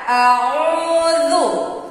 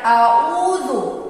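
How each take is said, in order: First: The opening ain sound is pressed and clear. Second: The opening ain sound is weak and unclear. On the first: The speaker calls it right. "jadi ditekankan sedikit" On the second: The speaker calls it wrong. "jangan a'udzu. Kalau kita membacanya a'udzu, itu berarti tidak jelas huruf ainnya"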